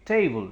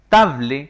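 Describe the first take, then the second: First: It is said with English vowel sounds. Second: Each letter is read with Spanish sounds. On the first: The speaker calls it right. "sino que table" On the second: The speaker calls it wrong. "yo no lo pronuncio table como está escrito"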